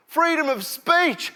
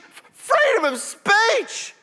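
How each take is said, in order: First: Chanted, higher shouted slogan; chanted, call it out like a protester; mock chant. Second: Much higher, louder, slower screeched slogan; hammed-up shriek. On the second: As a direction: scream it like a frenzied rally crowd. Repeated slogan, bigger.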